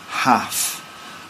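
It is said in a northern English accent. "And in the north, they'd say"

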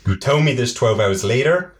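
It is said in an American-sounding accent.

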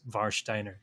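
The name is pronounced with German sounds. "the German pronunciation is Warsteiner"

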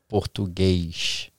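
The word ends with an 'sh' sound. The speaker is from Rio. "that sh- at the end, you know, it's very common from people from Rio"

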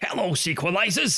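It is said in a silly put-on voice.

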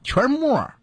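It is said in a Beijing accent.

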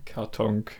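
It ends in a velar nasal plus k.

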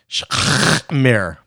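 It is said in a Yiddish-style Jewish accent.

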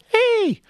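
It is said in a small, sweet voice.

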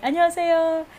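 It is said in a low, deep voice.

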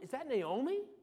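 It sounds confused and puzzled.

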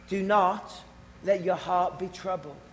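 It is said in a soft, gentle way.

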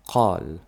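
It begins with a deep q sound.

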